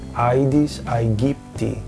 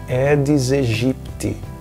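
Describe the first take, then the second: First: The ae is pronounced as the diphthong ai. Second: The ae is pronounced as a plain e vowel. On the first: This is the classical Latin pronunciation. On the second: This is the simplified church-style pronunciation common in Brazil. "muitas pessoas pronunciam"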